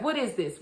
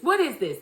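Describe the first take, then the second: First: Said in the usual way. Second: Husband confronting his wife, escalating; mock angry demand. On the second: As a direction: press the question harder as he realizes. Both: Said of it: "And he's like".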